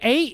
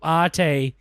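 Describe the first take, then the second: First: The name sounds like the number eight. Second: The name does not sound like eight. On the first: The speaker calls it wrong. "So your friends call you eight" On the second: The speaker calls it right.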